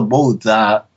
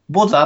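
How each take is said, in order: First: The first vowel glides from o to u. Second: The first vowel is a plain short o. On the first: This is how it is said in the original language. "あちらの発音だとボウザのようなんですね。" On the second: This is how Japanese speakers usually say it. "まあ僕ら、ボザって言うじゃないですか。"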